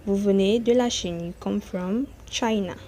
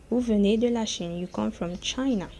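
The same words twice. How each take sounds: The two takes are said the same way.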